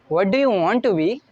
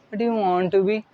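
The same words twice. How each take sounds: First: It is said confidently and enthusiastically. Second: It is said flatly without confidence.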